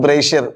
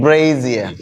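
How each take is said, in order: First: "brazier" as BRAY-sher, sh in the middle; mispronunciation. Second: "brazier" as falling BRAY-zee-uh, lower-pitched; correct pronunciation. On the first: Teacher warns the class off this form, mispronounced. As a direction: say "brazier" short, two syllables with a hushed sh. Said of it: "it's not a brazier". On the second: Teacher corrects the class's form, correctly and carefully pronounced. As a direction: say "brazier" in three syllables with a buzzed z. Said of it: "It's brazier". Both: Shown as a demonstration.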